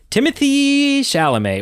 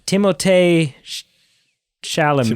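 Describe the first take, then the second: First: The name is said with English pronunciation. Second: The name is said with French pronunciation. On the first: The speaker calls it wrong. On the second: The speaker calls it right.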